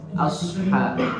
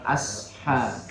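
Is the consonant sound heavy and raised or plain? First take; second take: heavy; plain. First: The consonant is heavy, raised toward the palate. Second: The consonant is plain, without a raised heavy sound. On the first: The speaker calls it right. "tapi dinaikkan suara" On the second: The speaker calls it wrong. "Jangan terbaca ashab"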